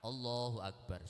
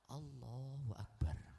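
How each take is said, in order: First: It is said at normal loudness. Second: It is said quietly.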